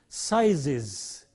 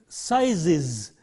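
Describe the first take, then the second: The two takes are said the same way.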